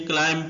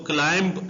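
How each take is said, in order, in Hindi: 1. इस शब्द का अंत m की आवाज़ से होता है। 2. इस शब्द का अंत b की साफ़ आवाज़ से होता है। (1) "क्लाइम पढ़ेंगे, एम की आवाज एंड पे आएगी" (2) "इसको क्लाइंब नहीं पढ़ेंगे"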